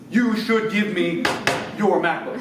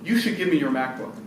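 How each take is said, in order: First: It is said in an angry, forceful tone. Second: It is said in a calm, mild tone.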